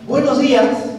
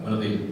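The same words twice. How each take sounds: First: It is said in a friendly, warm way. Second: It is said in a grudging, unfriendly way.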